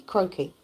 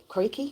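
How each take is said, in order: First: "Croaky" landing downward; settled pronunciation. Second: "Croaky" pitched up, querying; questioning pronunciation. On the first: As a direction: say "Croaky" with a falling end. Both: Shown as a demonstration. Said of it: "My voice is really croaky".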